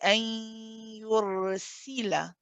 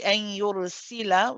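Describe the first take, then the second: First: The vowel after the s sound is clearly heard. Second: The vowel after the s sound is clipped. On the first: The speaker calls it right. "You want to say an yursila" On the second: The speaker calls it wrong. "which would be incorrect"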